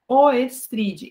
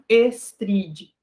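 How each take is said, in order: First: The word starts with an 'o-e' sound. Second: The word starts with a plain 'e' sound. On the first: The speaker calls it right. "a pronúncia de Oestride realmente é Oestride" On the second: The speaker calls it wrong. "e não Estride"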